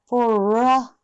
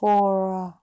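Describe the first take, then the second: First: The word ends with an added 'ra' sound. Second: The word ends softly with no added vowel. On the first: The speaker calls it wrong. "これやり好き" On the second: The speaker calls it right. "これがfor"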